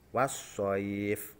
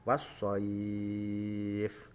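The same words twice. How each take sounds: First: The vowel before the final sound is held briefly. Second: The vowel before the final sound is held very long. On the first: "Ini yang contoh satu alif" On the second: "tiga alif atau enam harokat"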